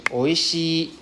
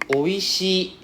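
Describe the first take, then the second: The two takes are said the same way.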